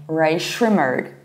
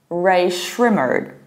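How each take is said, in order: First: The name ends with a pronounced R sound. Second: The same.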